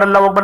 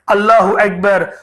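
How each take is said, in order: First: It is said fast and hurried. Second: It is said slowly and lovingly.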